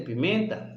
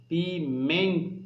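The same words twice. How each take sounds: First: Said in the usual way. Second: Pimenta slowly broken into pi, MEN, ta; stress on MEN. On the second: Shown as a demonstration. Teacher asking pupils for attention, pimenta split slowly with stress on MEN. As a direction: lean on the MEN of pimenta, syllables apart. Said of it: "o men sai com mais força".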